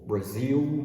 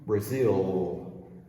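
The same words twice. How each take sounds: First: The final L sounds like an oo vowel. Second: The final L is a dark L sound. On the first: "it's more like an oo sound" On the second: "the L is ol, not oo"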